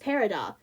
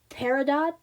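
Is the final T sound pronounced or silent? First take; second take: silent; pronounced. First: The final T sound is left out. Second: The final T sound is pronounced. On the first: "just take the T out" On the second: "if you say the word peridot"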